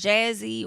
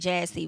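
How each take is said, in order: First: The middle consonant is a buzzing z sound. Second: The middle consonant is a hissing s sound.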